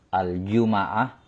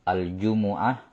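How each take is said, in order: First: The m is followed by an a vowel. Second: The m is followed by a u vowel. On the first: "bisa di fathah" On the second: "di dhammah mimnya"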